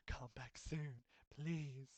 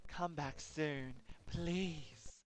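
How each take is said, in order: First: Said in the usual way. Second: Slow, drawn-out eerie plea; creepy plea. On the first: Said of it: "It said". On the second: Acted. Game character begging the player to return, slow and eerie. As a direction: stretch each word like a lonely ghost. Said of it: "Look, that's scary".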